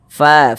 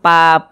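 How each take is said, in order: First: It starts with air flowing through the lips. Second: It starts with a closed stop of the lips. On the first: The speaker calls it right. "harus ada nafas yang mengalir ketika kita mengucapkannya" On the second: The speaker calls it wrong. "jangan pa"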